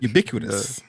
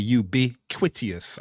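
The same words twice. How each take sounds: First: The middle is said without a 'quit' sound. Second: The middle is said like the word 'quit'. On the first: The speaker calls it right. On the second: The speaker calls it wrong.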